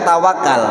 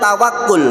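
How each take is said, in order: First: The last syllable has the vowel 'a'. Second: The last syllable has the vowel 'u'. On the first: The speaker calls it wrong. "bukan tawakal" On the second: The speaker calls it right. "Sebenarnya yang betul tawakul"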